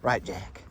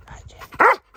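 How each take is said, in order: First: Said in the usual way. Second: Very high, loud doggy squeal; shrill-free high pet voice, big and loud. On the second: Real, not acted. Sudden squeal to the dog.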